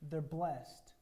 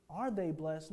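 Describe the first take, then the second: First: "They're blessed." stated with falling finality; statement. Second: "Are they blessed?" put as a question. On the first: Preacher shows Jesus making a statement, declarative. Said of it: "he's making a statement". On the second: Preacher voices the question Jesus is not asking, questioning. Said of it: "He's not asking a question". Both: Shown as a demonstration.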